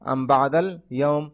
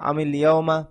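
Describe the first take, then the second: First: The word am ends on a bare m sound. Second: The word am gains an i linking forward. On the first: The speaker calls it wrong. "ভুল হয়েছে" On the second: The speaker calls it right. "মিলিয়ে পড়ার কারণে আমি হয়েছে আমি লিয়াউমা"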